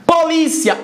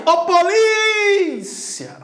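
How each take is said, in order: First: Said in the usual way. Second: High, stretched call on polícia; long drawn-out call. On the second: Shown as a demonstration. Teacher calling to future police officers, stretched call. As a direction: holler polícia, holding the stressed vowel. Calls out example word, stretched.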